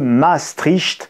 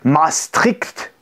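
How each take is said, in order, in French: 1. Le nom est prononcé de façon simple. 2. Le nom est prononcé de façon imitée.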